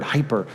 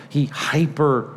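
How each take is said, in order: First: Said in the usual way. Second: The word hyper drawn out slowly, leaning on it; stressed hyper. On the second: Shown as a demonstration. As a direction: savour hyper slowly, with weight on it. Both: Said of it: "the prescription on the front of that little word".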